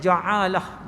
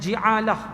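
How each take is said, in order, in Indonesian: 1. Vokal pertama adalah bunyi a. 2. Vokal pertama adalah bunyi i. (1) "dengan baris atas" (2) "baris bawah"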